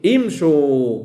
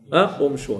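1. تبدأ الكلمة بالصوت i. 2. تبدأ الكلمة بالصوت u. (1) "تقول في الأمر امشوا" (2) "ولا تقول امشوا"

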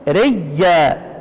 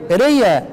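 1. صوت الياء مشدد وممدود. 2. صوت الياء مفرد وقصير. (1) "طب ابدل واضغم" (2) "اصل لو ابدال فقط هيبقى ايه؟"

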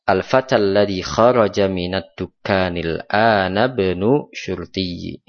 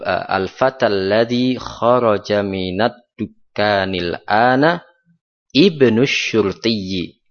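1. Seluruh kalimat dibaca tanpa jeda. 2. Ada jeda sebelum frasa terakhir. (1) "Kalau mau disambung" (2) "Tapi kalau ingin dipisah, artinya tidak mau disambung karena ingin menjelaskan, ada penekanan di sini"

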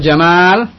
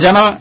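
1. Vokal kedua panjang. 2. Vokal kedua pendek. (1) "Tapi kalau jamal ... artinya keindahan" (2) "Kalau jamal jelas, wadih. Maknanya unta"

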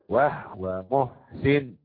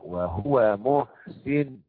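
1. لا توجد حركة بعد الهاء: wahwa. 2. الهاء تحمل ضمة كاملة: wahuwa. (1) "فاقرا بالاسكان" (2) "وبالضمة الخالصة"

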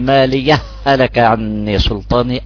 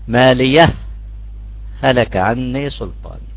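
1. تتصل الكلمتان ببعض، وتندمج صوتا الهاء. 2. توجد وقفة قصيرة تفصل بين الكلمتين. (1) "يا بضغمها" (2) "أو بسكت سكت اصطلاحي"

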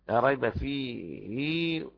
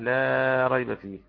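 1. تتبعها كسرة ممدودة. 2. تنتهي الهاء الأخيرة دون مدّ زائد.

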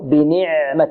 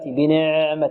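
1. العين متوسطة، لا ممدودة ولا مشدودة. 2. تُمدّ العين كما يُمدّ حرف المد الطويل. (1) "هي متوسطة، يعني الصوت يجري جريان متوسطا بين الشدة والرخوة" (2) "البعض يعني يأتي بها مثل الحرف المد"

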